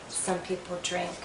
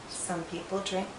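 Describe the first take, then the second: The two takes are said the same way.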